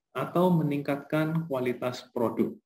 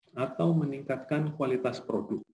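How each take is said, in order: The two takes are said the same way.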